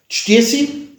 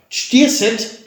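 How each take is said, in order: First: The word ends in a clipped syllable without t. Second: The word ends in a full syllable with t. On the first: This is the casual everyday form. "Stiersi ist Umgangssprache" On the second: This is the standard dictionary form. "Stierset ist Wörterbuch"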